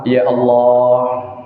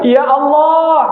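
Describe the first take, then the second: First: It is said at a calm, ordinary pitch. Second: It is said with a much higher voice.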